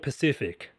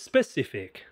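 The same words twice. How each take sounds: First: The word begins with a p sound. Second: The word begins with an s sound. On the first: The speaker calls it wrong. "could you be more specific instead of specific? Pacific is an ocean" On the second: The speaker calls it right. "we can be more specific"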